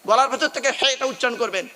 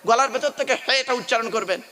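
The two takes are said the same way.

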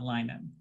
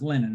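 First: The first syllable has a long 'i' sound, like 'lie'. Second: The first syllable has a short 'i' sound, like 'lin'. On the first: The speaker calls it wrong. "not linen" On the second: The speaker calls it right. "The word is linen"

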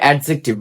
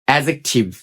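First: The d sound is pronounced before the j. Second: The d sound is left silent before the j. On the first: The speaker calls it wrong. "অনেকে আমরা উচ্চারণ করি অ্যাডজেক্টিভ" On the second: The speaker calls it right. "এখানে ডিটা চাইলেন থাকবে"

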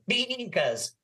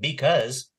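First: The word is drawn out in a bleating voice. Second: The word is said in a plain, normal voice. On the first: "every time you get goaty ... it lengthens it" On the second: "instead of saying because"

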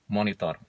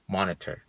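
First: It is said with Indonesian pronunciation. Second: It is said with English pronunciation.

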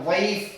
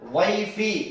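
First: The word ends on a bare consonant. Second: The word ends with a short vowel. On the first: The reading stops at this word. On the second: The reading continues on without stopping.

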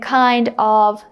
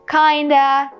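First: It is said as two full words. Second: It is said as one reduced word. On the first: "instead of saying kind of" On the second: "you can say kinda"

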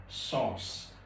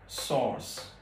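No difference in how they are said.

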